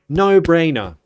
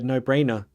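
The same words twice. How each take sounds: First: It is said with strong feeling and stress. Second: It is said flatly, without emotion. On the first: The speaker calls it right. "You need to you need to feel it" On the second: The speaker calls it wrong. "You don't just say"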